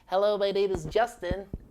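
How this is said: It is spoken in a squeezed, nasal voice.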